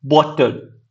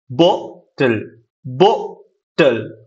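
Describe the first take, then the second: First: Said in the usual way. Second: "bottle" very slowly, split as बॉ... टल; lower, drawn-out "bottle" with a gap before टल; syllable stress demo. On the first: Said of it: "जैसे कि हमने word use किया". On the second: Shown as a demonstration. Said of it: "पहले हम sound stress किस पे दे रहे हैं". ("बॉटल" को धीरे, दो हिस्सों में तोड़कर बोलना)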